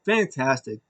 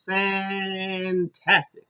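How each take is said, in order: First: Said in the usual way. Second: Drawn-out praise. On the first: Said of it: "This match was fantastic". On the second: Real, not acted.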